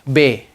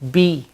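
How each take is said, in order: First: The vowel is an open 'ay' sound. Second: The vowel is a spread, smiling 'ee' sound. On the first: The speaker calls it wrong. "So it's never A, like be" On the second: The speaker calls it right. "It's B, T with a big smile"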